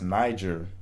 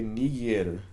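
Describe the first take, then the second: First: The vowels are given modern English sounds. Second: The vowels are given classical Latin sounds. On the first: "today we would look at this word and pronounce it um, as Niger" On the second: "the proper pron- pronunciation for this word um, would be ni niger"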